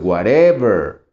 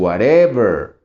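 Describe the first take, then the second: First: The stress is on the middle syllable. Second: The same.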